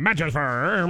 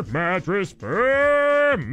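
First: Said in the usual way. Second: Each syllable stretched slowly; slow stretched jingle-like call; drawn-out brand call. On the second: Shown as a demonstration.

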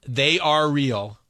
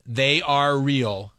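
First: "they are real" dragged out word by word; slow and deliberate. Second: "they are real" very slowly, each word stretched; even slower. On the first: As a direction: mouth "they are real" slowly and clearly. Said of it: "Do it again". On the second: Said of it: "one more time". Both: Shown as a demonstration.

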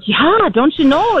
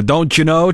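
First: Hammed-up Minnesota-Wisconsin accent, slow and much higher, "Yeah, don't you know?" drawn out. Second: A light mock Minnesota-Wisconsin "don't you know", higher pitched; Minnesota-Wisconsin accent. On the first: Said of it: "the don't you know type of stuff". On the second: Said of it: "the Minnesota-Wisconsin dialect".

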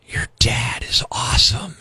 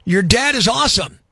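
First: Creepy whisper. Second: Said in the usual way. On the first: Shown as a demonstration. Host whispers a listener's line to sound creepy. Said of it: "sounds creepy when whispered". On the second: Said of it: "this one's pretty good".

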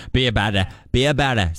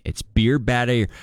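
First: Put-on Boston accent, dropping the r's. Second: Said in the usual way. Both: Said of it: "That's my Boston accent".

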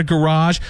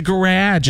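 First: 'garage' as guh-RAHZH; rejected soft ending. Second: 'garage' as guh-RADGE, pitched up; insisted hard ending. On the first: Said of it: "It's not a garage". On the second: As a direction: say 'garage' with j at the end. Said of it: "It's a garage". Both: Shown as a demonstration.

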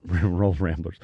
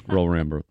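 First: Laughing cheer. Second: Laughing school cheer. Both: Real, not acted.

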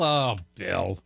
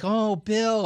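First: Sympathy running out. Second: High-pitched, exaggerated pitying coo; mock sympathy. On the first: Retold or imitated. Co-host imitating everybody losing pity for the host, mock disappointment. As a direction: pitch dropping away into mock letdown. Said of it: "depletion of sympathy for you". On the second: Co-host imitating everybody feeling sorry for the host, mock sympathy. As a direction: gush with pity, pitch way up. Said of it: "fastest rise of sympathy for you".

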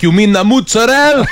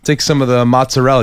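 First: Mozzarella as "mutsarel", no final vowel; Italian-American mozzarella. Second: Said in the usual way. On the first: Retold or imitated. Deli guy correcting a customer, mozzarella said "mutsarel". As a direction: say mozzarella like "moots-a-rell", clipped end. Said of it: "He's like".

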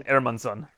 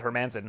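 First: "Hermansson" with the H dropped, opening on "air"; Swedish-style "Hermansson" with a silent H; Swedish pronunciation. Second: "Hermanson" with a sounded H and stressed MAN; English-style "Hermanson", H fully pronounced; anglicized pronunciation. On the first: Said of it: "how it's pronounced in Sweden". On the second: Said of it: "he's fine with everybody pronouncing it". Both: Shown as a demonstration.

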